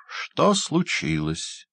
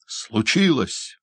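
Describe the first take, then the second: First: Lightly voiced hunchback, slow and higher; slow hunchback question. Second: Higher, slow echo of "Случилось!"; indignant doctor exclamation. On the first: Hunchback asks the doctor at the door, slow and mocking. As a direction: drag out "Что случилось?" as a sly hunchback. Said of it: "горбун". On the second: Acted. Doctor echoes the hunchback indignantly. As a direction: throw his word back at him. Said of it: "воскликнул доктор".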